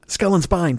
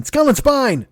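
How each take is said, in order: First: Said in the usual way. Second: High strained cry of pain. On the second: Real, not acted. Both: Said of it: "the fucking shooting pain".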